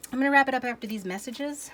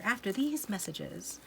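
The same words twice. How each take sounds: First: High, loud Saturday morning announcer; cartoon announcer. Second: Said in the usual way. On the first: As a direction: boom it out like a TV cartoon break. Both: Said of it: "Sounded like a Saturday morning cartoon announcer".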